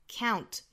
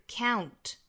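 The two takes are said the same way.

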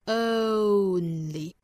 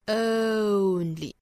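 First: The first vowel is an American 'oh' glide. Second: The first vowel starts from a central British sound. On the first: "美音更容易发一些是 only" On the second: "英音呢是 only"

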